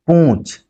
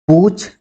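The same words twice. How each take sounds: First: पूछ said as पूँछ, ū through the nose; nasalised vowel. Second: पूछ with a plain, un-nasalised ū; oral vowel. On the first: Teacher reading a minimal pair, पूछ with nasalised vowel. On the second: Teacher reading a minimal pair, पूछ with oral vowel. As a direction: keep the vowel of पूछ out of the nose. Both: Shown as a demonstration. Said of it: "जो अनुनासिकता यहाँ पर है".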